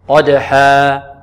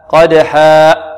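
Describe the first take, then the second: First: The final vowel ends cleanly without a catch. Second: The final vowel ends in a glottal catch. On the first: The speaker calls it right. "هكذا" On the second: The speaker calls it wrong. "نأتي بهمزة في آخر الألف"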